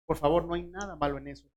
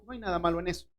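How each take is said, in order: First: Fast, pressing the point home; fast reassuring insistence; quick insistent repeat. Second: Said in the usual way. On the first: Shown as a demonstration. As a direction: rush it out, insisting.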